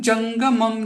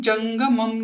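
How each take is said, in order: No difference in how they are said.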